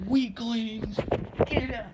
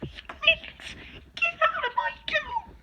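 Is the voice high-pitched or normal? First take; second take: normal; high-pitched. First: It is said in a plain, ordinary voice. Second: It is said in a strained high-pitched character voice.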